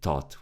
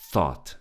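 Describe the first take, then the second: First: It starts with a hard T sound. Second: It starts with a soft TH sound. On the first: The speaker calls it wrong. "We don't say thought" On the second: The speaker calls it right. "With the tip of our tongue bet- between our teeth"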